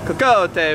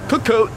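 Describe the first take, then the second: First: It is said with an Italian accent. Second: It is said with a British accent. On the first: "if it was Italian" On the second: "if it was British"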